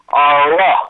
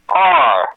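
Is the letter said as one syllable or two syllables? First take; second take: two syllables; one syllable. First: The letter is said with an added second syllable. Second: The letter is said as a single syllable. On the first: "they will say R-ra" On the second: "We say R"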